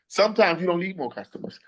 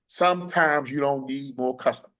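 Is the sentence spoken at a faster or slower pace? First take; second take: faster; slower. First: It is spoken at a normal pace. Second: It is spoken at a slower pace.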